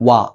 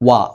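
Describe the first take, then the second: The two takes are said the same way.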